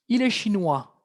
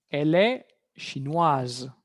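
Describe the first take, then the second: First: "chinois" ending on an open "wa", S silent; masculine French pronunciation. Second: "chinoise" slow and lower, ending in a Z sound; feminine French pronunciation. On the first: Teacher gives the masculine form, "chinois" with silent S. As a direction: drop the final S of "chinois". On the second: Teacher gives the feminine form, "chinoise" with audible Z. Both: Shown as a demonstration. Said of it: "Va a haber un cambio de pronunciación".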